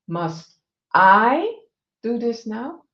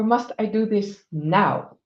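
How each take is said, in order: First: The stress falls on the word I. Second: The stress falls on the word now.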